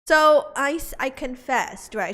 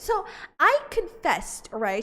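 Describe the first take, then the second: First: It is said in the speaker's normal voice. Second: It is said in a put-on Juliet voice.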